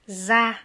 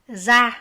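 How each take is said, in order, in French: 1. La syllabe commence par un son z. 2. La syllabe commence par un son z.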